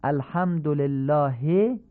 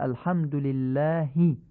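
First: الحمدلله as "alhamdolellaahe"; slow demo of الحمدلله with o and e; Persian-style reading. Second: الحمدلله as "alhamdulillaahi"; slowly, الحمدلله with u and i; Arabic vowels in الحمدلله, ending "hi"; Arabic kasra. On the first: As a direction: Persian vowels in الحمدلله, ending "he". Teacher shows Persian-style reading first. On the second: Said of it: "کسره فصیح گفته بشن". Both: Shown as a demonstration.

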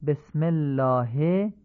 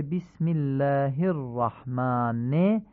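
First: بسم الله as "besmellaahe"; slow demo with Persian e in بسم; الله ending in open "he"; Persian-style reading. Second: بسم الله as "bismillaahi", short i sounds; slowly, بسم with Arabic i; Arabic kasra. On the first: Teacher shows Persian-style reading first. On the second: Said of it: "کسره فصیح گفته بشن". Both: Shown as a demonstration.

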